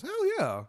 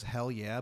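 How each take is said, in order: First: High squeaky voice crack; adolescent-style squeak on a cheer. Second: Said in the usual way. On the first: Acted. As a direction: let the voice break way up high. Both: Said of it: "but his voice cracks".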